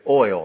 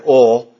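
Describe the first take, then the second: First: It is said in a general accent. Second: It is said in a South Georgia accent. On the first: "but I say oil now" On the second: "So in South Georgia, we say oil"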